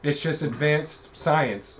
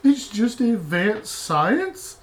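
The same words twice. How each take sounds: First: Dismissive wizard. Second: Much higher, slow disbelieving question; incredulous echo. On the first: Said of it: "according to the wizard". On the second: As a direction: repeat it in total disbelief. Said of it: "echoing the wizard line". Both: Acted.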